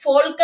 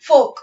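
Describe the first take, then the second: First: "Folk" with the L pronounced, FOL-kuh; wrongly sounded L. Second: "folk" as FOHK, no L; silent L. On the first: Teacher showing what not to say, L voiced in "Folk". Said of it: "എന്നല്ല പറയേണ്ടത്". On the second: Teacher giving the class the correct word, silent L in "folk". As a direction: leave the L out of "folk". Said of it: "we have to pronounce this word as folk". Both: Shown as a demonstration.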